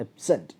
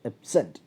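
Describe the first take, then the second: First: The stress is on the second syllable. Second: The stress is on the second syllable.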